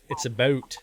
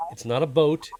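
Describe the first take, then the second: First: "boat" as Canadian about, raised rounded diphthong. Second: "boat" with a plain long o, as the wrong version; "boat" for about. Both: Shown as a demonstration. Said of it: "I'm just clarifying for language".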